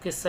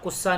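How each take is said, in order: First: The first vowel is an 'i' sound. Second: The first vowel is a 'u' sound. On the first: The speaker calls it right. "इसको किस्सा ही बोलेंगे" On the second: The speaker calls it wrong. "कुस्सा नहीं होता"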